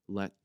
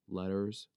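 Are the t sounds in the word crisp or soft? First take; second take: crisp; soft. First: The t sounds are crisp and clearly released. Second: The t sounds are soft and run together. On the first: "I don't say letters" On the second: "I just kind of like mush all of my letters together like that"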